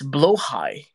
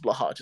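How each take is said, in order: First: The word sounds like 'blow high'. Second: The word sounds like 'blah-hahj'. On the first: This is how Swedish speakers say it. The speaker calls it wrong. "It's blow high. No, that's stupid" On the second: This version sounds fancier. The speaker calls it right. "blahaj is better"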